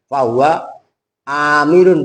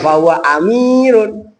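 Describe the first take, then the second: First: The first vowel of amirun is long. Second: The first vowel of amirun is short. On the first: The speaker calls it right. "A itu dibaca panjang" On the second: The speaker calls it wrong.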